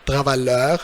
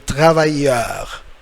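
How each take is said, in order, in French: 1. Le double L se prononce comme un son L. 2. Le double L se prononce comme un son Y. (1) "C'est pas travailleur, it's completely wrong" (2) "You should pronounce it like Y"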